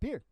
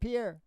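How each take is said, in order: First: The name is said like the English word pier. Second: The name is said with a French pronunciation. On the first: This is how someone else called the man. "my dad used to call him Pier" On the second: This is the man's real name. "Not Pierre"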